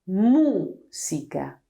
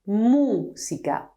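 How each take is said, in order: Both takes have the same delivery.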